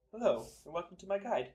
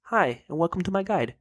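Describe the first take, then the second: First: Far off and much softer, as if down a hall; through a tube. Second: Light imitation of a guide narrator; lightly voiced YouTube guide intro; Slayer Music impression. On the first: Retold or imitated. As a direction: speak it through a tube, distant. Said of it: "speaking into a tube down a hall". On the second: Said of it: "That's my Slayer Music impression".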